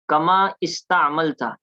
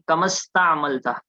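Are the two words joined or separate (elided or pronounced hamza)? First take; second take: separate; joined. First: The two words are said separately, hamza pronounced. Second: The two words run together, hamza dropped.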